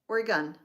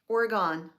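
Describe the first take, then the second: First: The last syllable sounds like 'gun'. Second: The last syllable does not sound like 'gun'. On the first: The speaker calls it right. "I have to remember to say the G U N" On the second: The speaker calls it wrong. "I always say it wrong twice"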